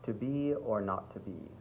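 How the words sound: It is spoken in a neutral American accent. "if you did standard American ... I think this might work best"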